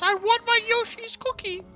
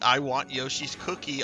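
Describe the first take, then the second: First: It imitates the old lady's voice. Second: It is said in his ordinary voice.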